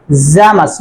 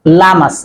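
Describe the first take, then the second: First: Llamas begun with a buzzed "z" sound, "zamas"; double-l as z/j. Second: Llamas begun with an English "l", "lamas"; plain l, wrong. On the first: Teacher showing viewers the Spanish double-l, buzzed z sound. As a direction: say Llamas as "zamas", buzzing the start. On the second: Teacher showing viewers the mistake, plain l sound. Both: Shown as a demonstration.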